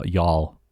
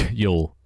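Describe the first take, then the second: First: Y'all said as yahl, open ah vowel; careful attempt at y'all with an ah sound; trying to say y'all. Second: Y'all said as yole, rounded o vowel, with a laugh; laughing retry of Y'all rounded to yole; second try at y'all. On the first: British streamer practising y'all for chat, careful yahl. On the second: Streamer retrying y'all for chat, laughing, rounded yole. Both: Shown as a demonstration. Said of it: "I just tried pronouncing it".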